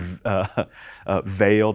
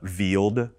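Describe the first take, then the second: First: The vowel sounds like the one in 'vale'. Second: The vowel sounds like the one in 'veal'. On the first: The speaker calls it right. "instead of saying veiled" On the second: The speaker calls it wrong. "like a deer cutlet, sort of weird"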